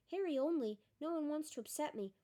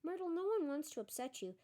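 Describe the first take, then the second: First: Mocking. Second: Gently soothing a hurt ghost. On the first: Myrtle mocks Hermione's words. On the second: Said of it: "said Hermione". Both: A narrator's reading.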